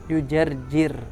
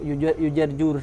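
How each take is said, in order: First: The vowel before the final r is i. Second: The vowel before the final r is u. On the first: The speaker calls it right. "tapi dibaca kasroh" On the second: The speaker calls it wrong. "jangan dibaca"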